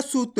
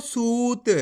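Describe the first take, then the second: First: सूत clipped with a short u like सुत; wrong short u. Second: सूत with the ऊ held long; correct long u. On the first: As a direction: rush the vowel in सूत as a mistake. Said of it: "ऐसे नहीं पढ़ना". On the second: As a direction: say सूत stretching the vowel. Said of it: "इसी तरीके से पढ़ना आपको सूत". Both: Shown as a demonstration.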